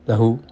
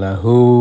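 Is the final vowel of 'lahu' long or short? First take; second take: short; long. First: The final vowel is short. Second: The final vowel is lengthened. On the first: The sound may be too faint. The speaker calls it wrong. "Kalau dibaca pendek" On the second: The sound is clearer. The speaker calls it right. "loh agak jelas ya"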